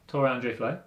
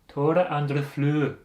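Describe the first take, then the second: First: The name is said with English pronunciation. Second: The name is said with Norwegian pronunciation.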